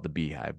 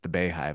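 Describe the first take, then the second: First: The first syllable sounds like bee. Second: The first syllable sounds like bay. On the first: The speaker calls it wrong. "I wanted to call it the Beehive" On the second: The speaker calls it right. "but it's the Beyhive, I believe"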